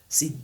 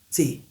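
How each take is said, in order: The two takes are said the same way.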